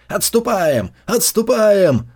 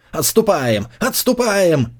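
First: Shouted retreat. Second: Rising, urgent repeated order; retreat order. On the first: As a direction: bellow the retreat across the field. Order repeated by riders. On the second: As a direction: call the retreat, building. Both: A narrator's reading.

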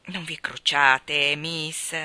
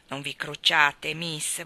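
First: Slow, lower, soothing; calm the crying girl gently; consoling. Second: Consoling. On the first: (Luke consola Maggie, lento e pacato) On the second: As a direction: gently reassure her once more. (Luke rassicura Maggie, lento e basso) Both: Acted. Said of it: "disse Luke per consolarla".

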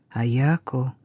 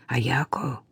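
First: Low, softened call to a daughter; quiet call. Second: Hushed whisper of her name. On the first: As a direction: call out softly, pitched low, not whispered. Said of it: "её тихо окликнули". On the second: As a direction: whisper to her so the guard won't notice. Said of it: "прошептала Кира". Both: A narrator's reading.

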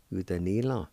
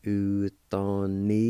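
First: Said in the usual way. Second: Slow, careful Utanila; slow demo. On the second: Shown as a demonstration. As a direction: say Utanila slowly, each syllable clear. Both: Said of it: "It's pronounced like this".

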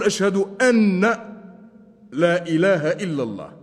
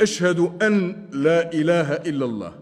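First: "أن" said as "anna", with a break after it; stressed "anna" for "أن", then pause; doubled open nun. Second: Said in the usual way. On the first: Shown as a demonstration. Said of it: "فتح النون بتشديدها". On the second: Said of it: "فتح النون بتشديدها في".

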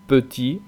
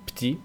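First: "petit" with the E clearly said, pe-ti; full French petit. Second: "petit" said as "pti", with no E; dropped E. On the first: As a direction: say both syllables of "petit". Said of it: "Algunos ejemplos". ("petit" con la E pronunciada) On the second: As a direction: swallow the E of "petit". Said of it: "Muchos franceses dicen". ("petit" sin E, como "pti") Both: Shown as a demonstration.

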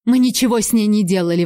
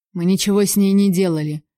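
First: Fast, insistent protest; hurried, mildly agitated exclamation; exclaimed denial. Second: Said in the usual way. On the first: A narrator's reading. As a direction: blurt out the denial. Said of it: "воскликнула Селек". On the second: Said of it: "неожиданно без гонора заговорил Архам".

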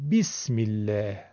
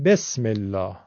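First: بسم الله as "bismillaah", clear i and front "a"; Arabic pronunciation. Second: بسم الله as "besmellaa", with e and back "aa"; Persian pronunciation. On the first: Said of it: "عرب میگه". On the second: Teacher showing Persian habit, "besmellaa" for بسم الله. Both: Shown as a demonstration.

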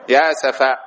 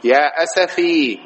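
First: "أسفا" ending in long aa; ya turned alif. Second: "أسفي" slowly, ending in long ee; original ya form. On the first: Teacher quoting Jacob's lament, "أسفا" with long final aa. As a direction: say "أسفا" as asafaa. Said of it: "تقلب الياء ألفًا". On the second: Teacher showing the origin, "أسفي" with stretched final ee. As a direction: draw out "أسفي" as asafii. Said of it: "هذا أصله". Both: Shown as a demonstration.

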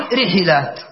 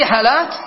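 First: رحلات as ri-ḥi-lāt, falling at the end; middle vowel i. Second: رحلات as ri-ḥa-lāt, rising at the end; middle vowel a. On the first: Teacher offers a third option, رحلات as ri-ḥi-lāt. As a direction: echo the first i in رحلات: ri-ḥi-lāt. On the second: Teacher offers a second option, رحلات as ri-ḥa-lāt. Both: Shown as a demonstration. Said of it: "أو تقول رحلات".

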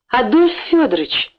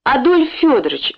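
First: Exclaiming. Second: Pleading. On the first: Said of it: "воскликнул он". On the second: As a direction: beg the owner by name. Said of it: "взмолился он". (умоляюще, громче и выше) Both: A narrator's reading.

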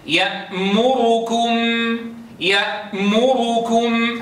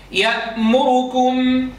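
First: يأمركم slowly chanted, the damma on the ra held fully; يأمركم with a complete rounded u on the ra; full damma. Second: يأمركم chanted with the damma on the ra snatched short; the u of يأمركم clipped and quick. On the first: Teacher chanting Hafs's full damma for contrast. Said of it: "هذا ضم كامل". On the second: Teacher chanting Abu Amr's snatched damma. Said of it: "شوفوا كيف خطفناها". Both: Shown as a demonstration.

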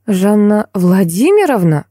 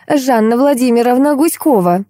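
First: Slow, amazed echo of a name; startled recognition. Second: High, self-important introduction; ceremonious. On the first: Heroine recognises the woman she sought, startled. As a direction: repeat it slowly, pitch swooping in surprise. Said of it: "едва не подпрыгнула я". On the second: Lady introduces herself by full name, ceremoniously. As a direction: present the full name grandly, pitched up. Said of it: "церемонно представилась дама". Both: A narrator's reading.

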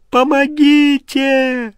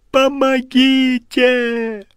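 First: High, louder, slow dying-off cry; desperate final scream. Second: High, slow scream of terror; terrified scream. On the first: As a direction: push the last plea out in despair. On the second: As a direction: drag out the cry for help. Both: Acted. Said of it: "Он проснулся в холодном поту".

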